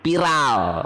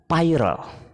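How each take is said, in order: First: It is pronounced the Indonesian way. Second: It is pronounced the English way. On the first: "Kalau kita jadikan ucapannya bahasa Indonesia menjadi viral" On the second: "kalau pengucapannya viral, karena bahasa Inggris ya"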